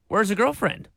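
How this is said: It sounds like a genuinely curious question.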